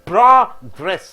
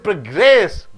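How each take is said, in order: First: The stress is on the first syllable. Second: The stress is on the second syllable. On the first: It means advancement. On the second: It means to move forward.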